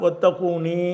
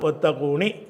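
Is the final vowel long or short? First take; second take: long; short. First: The final vowel is drawn out long. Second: The final vowel is cut short. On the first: "ஏ போட்டும் சொல்லலாம்" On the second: "குறிலாக நெடிலா சொல்லாமல் குறிலாகவும் சொல்லலாம்"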